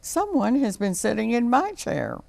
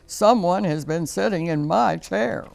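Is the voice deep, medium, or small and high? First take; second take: medium; deep. First: It is said in a medium mama bear voice. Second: It is said in a big, deep papa bear voice.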